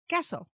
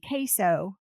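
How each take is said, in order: First: It is said with a Spanish pronunciation. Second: It is said with an American Southwest pronunciation. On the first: The speaker calls it right. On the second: The speaker calls it wrong.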